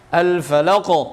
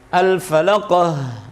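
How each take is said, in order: First: The final q is strong and ends crisply. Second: The final q is weak and trails into h. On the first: The speaker calls it right. "dia kuat" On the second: The speaker calls it wrong. "Lembek itu terkesan di situ ada huruf ha"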